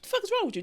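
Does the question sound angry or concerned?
concerned. It sounds concerned, as if asking what's going on.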